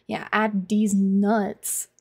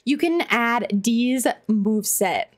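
First: Very slow, drawn-out joke delivery; slow punchline. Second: Said in the usual way. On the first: Shown as a demonstration. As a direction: drag out the punchline. Slow punchline twist on chat.

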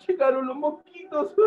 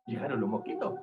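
First: High-pitched storyteller's alarm; mock alarm. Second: Low, soft storyteller aside; hushed announcement. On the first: Storyteller warning children that mosquitoes have arrived, mock alarm. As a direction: cry it out high, playing at panic. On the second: Acted. Storyteller hearing mosquitoes arrive at the pond, hushed. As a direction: say it low and quiet, as a first warning.

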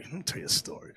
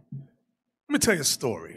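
First: Hushed whisper, much softer, drawing them in. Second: Said in the usual way. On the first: Shown as a demonstration. Preacher hushing the congregation before a story, whispered. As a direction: lean in and whisper Let me tell you a story.

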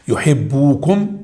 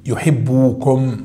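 First: Slow reading with a rise. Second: Slow model reading. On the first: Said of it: "في مشكلة". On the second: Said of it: "حذف النون". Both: Shown as a demonstration.

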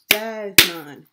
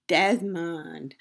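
First: Desmond in two loud beats, Des-mond; syllable by syllable. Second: Said in the usual way. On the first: Shown as a demonstration. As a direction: punch out both syllables of Desmond. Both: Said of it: "how many parts a word can be broken into".

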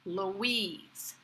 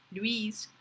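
First: Relaxed "Louise", stress on the second syllable; "Louise" as two easy syllables, loo-WEEZ; American "Louise". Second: "Louise" said the French way, as one syllable "lweez". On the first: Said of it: "Very relaxed with the stress on the second syllable". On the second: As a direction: glide quickly from L into "weez" in "Louise". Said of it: "as it might be in French". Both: Shown as a demonstration.

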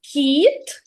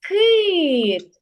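First: Кіт with soft к and i; кіт, soft consonant. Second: Кит with hard к and и; кит, hard consonant. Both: Shown as a demonstration. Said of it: "ці слова схожі за звучанням".

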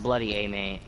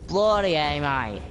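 First: "bloody A, mate" repeated in a near-plain voice; lightly voiced Aussie phrase; Australian accent, toned down. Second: Mock Aussie "Bloody A, mate"; Australian accent. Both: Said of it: "Oh, that's not even Australian".

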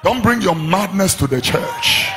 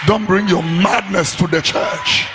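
The two takes are said the same way.

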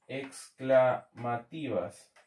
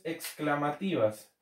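First: Very slow and lower, syllable by syllable; slow dictation. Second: Said in the usual way. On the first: Real, not acted. Teacher repeating a term as it is written, slow dictation. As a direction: break the word into slow, separate syllables.

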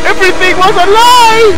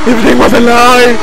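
First: High, hammed-up wail; anguished wail. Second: Dramatic cry at normal pitch; anguished cry. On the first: Player betrayed after Amy's death, high anguished wail. Repeats outburst higher. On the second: Acted. Player betrayed after Amy's death, anguished cry. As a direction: declaim the betrayal.

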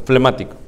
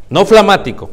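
First: Flemático with a clear e, fle-mático; correct flemático. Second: Flamático said with an a, flaaa-mático; mispronounced flamático. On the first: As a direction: give the right form: flemático. (pronunciación correcta: flemático) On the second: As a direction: say it wrong on purpose: flamático. (pronunciación errónea: flamático) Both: Shown as a demonstration. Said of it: "No flamático, flemático".

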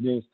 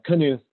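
First: Knuth said as "nooth", one syllable; Knuth starting straight on the N; silent-K Knuth. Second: Knuth said as "kuh-NOOTH", two syllables; Knuth with a hard K, then "nooth"; sounded-K Knuth. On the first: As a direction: say Knuth without sounding the K. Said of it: "I wanna say Knuth". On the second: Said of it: "I think it's pronounced Knuth". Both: Shown as a demonstration.

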